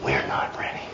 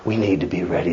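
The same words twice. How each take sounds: First: Whispered, much lower and softer; hushed reply. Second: Said in the usual way. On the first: Acted. Preacher whispering the answer back to his flock. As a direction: drop to a breathy whisper for the answer.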